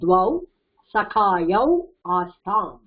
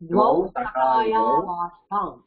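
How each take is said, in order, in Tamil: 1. சொற்கள் தனித்தனியாகச் சொல்லப்படுகின்றன, 'au'-வில் முடிகின்றன. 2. சொற்கள் 'av' உடன் ஒன்றாகச் சேர்ந்து சொல்லப்படுகின்றன. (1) "பிரிக்கும் போது द्वौ சகாயௌ ஆஸ்தாம் அப்படி வந்துரும்" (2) "சேர்த்து படிக்கும்போது द्वौ சகாயாவாஸ்தாம் அப்படிதான்"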